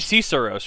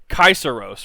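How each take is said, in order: First: The word begins with a soft S sound. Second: The word begins with a hard K sound. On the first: The speaker calls it wrong. "It would be Caesaros, right? Because no, no, wait" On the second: The speaker calls it right. "Caesar was pronounced Kaiser"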